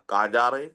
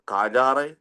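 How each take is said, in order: The two takes are said the same way.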